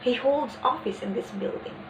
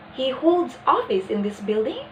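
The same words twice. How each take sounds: First: Emphasis on "this", without a questioning rise; stress on THIS. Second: Statement turned into a question, rising on "building?"; doubtful rising intonation. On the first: Teacher showing how to emphasize a place, stress placed on "this". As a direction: stress "this" before "building", ending as a statement. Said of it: "stresses a demonstrative adjective before that noun".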